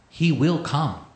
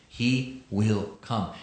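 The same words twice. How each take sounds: First: "will" stressed, a bit louder and higher; emphatic. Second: Slow and grave. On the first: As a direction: press hard on "will" in "He will come". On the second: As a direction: let "He will come" fall slow and heavy. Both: Shown as a demonstration. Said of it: "underline the word will".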